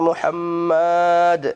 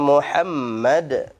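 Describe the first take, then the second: First: The vowel before the final d is drawn out long. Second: The vowel before the final d is kept short. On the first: The speaker calls it wrong. "Itu ya keliru itu. Jangan dipanjangkan" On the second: The speaker calls it right. "Gitu bacanya kan?"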